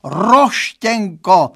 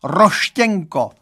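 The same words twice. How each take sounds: First: 1 lamenting, more drawn out. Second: 1 lamenting. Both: Acted. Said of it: "zanaříkal".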